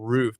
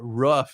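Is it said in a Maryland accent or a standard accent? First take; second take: standard; Maryland. First: It is said in a standard accent. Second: It is said in a Maryland accent.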